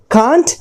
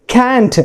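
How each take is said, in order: First: Can't with a long ah, KAHNT; first pronunciation. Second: Can't with the a of cat; second pronunciation. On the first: Teacher gives one of two pronunciations, can't with long ah. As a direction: say "can't" with the vowel of father. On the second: Teacher gives the other pronunciation, can't with short a. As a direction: say "can't" as KANT, rhyming with ant. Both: Shown as a demonstration. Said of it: "दो pronunciation हैं".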